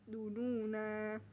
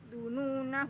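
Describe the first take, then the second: First: The final vowel is long before a stop. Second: The final vowel is short and runs on. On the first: "Ketika waqaf nun dibaca panjang" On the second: "ketika wasal nun dibaca pendek"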